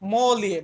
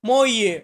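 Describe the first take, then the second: First: The L sound is clearly pronounced. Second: The L sound is left out. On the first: "এখানে লর্ড sound আমরা স্পষ্ট করব" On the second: "অনেক সময় আমরা মইয়ে, এমনটা উচ্চারণ করে থাকি"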